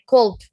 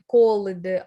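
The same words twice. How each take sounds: First: The ending blends in as one sound. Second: The ending is said as a separate syllable. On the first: The speaker calls it right. "We pronounce it as one letter" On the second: The speaker calls it wrong. "we don't say called"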